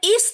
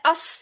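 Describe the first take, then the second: First: The syllable begins with an 'i' vowel. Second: The syllable begins with an 'a' vowel. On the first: The speaker calls it right. "यहाँ इस्त है" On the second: The speaker calls it wrong. "अस्त लफ्ज नहीं है"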